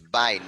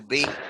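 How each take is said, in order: First: The prefix sounds like the word 'bye'. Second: The prefix sounds like the letter B. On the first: The speaker calls it right. "that's the way we pronounce it" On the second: The speaker calls it wrong. "no B"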